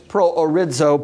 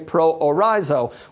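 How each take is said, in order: First: The z is said as a dz sound. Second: The z is said as a plain z sound. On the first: "the Z letter ... in the Greek is pronounced like a DZ, so it's proorizo" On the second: "if we were to pronounce it in English phonetics, we would say proorizo"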